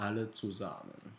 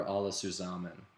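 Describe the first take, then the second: First: "Alle zusammen" said the German way, ah-leh tsoo-zah-men; "Alle zusammen" in careful German; German pronunciation. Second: Said in the usual way. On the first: Shown as a demonstration. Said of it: "We're all together".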